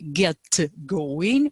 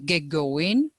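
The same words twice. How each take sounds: First: The T at the end of get is pronounced. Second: The T at the end of get is dropped. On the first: The speaker calls it wrong. "we don't say get going" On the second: The speaker calls it right. "we say get going. Boom. Uh, don't get it, no T"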